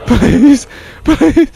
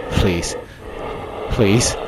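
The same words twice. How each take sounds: First: Much higher, louder whiny plea; mock begging. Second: Said in the usual way. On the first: Real, not acted. Player begging the monster, high whiny mock plea. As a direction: beg like your life depends on it.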